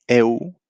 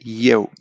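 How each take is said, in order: First: It starts straight on a plain e vowel. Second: It starts with a y glide before e. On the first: The speaker calls it wrong. "you don't say eu, this is e and you" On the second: The speaker calls it right. "you say eu"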